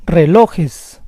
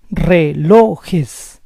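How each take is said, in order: First: Said in the usual way. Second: Relojes split as re-LO-jes; syllable by syllable. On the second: Shown as a demonstration. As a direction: say Relojes in parts, stressing LO. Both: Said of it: "stress is on the second to last syllable".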